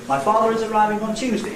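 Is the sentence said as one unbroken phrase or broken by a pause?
unbroken. It is said as one unbroken phrase. "just as one word group containing one nucleus"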